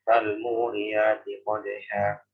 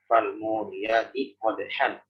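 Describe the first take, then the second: First: The last word ends on a long 'a' vowel. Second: The last word ends with an 'an' sound. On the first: The reader stops at the end of the verse. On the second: This is the word's original form.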